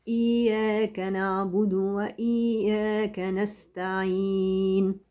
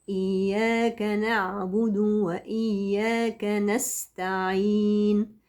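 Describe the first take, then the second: Both takes have the same delivery.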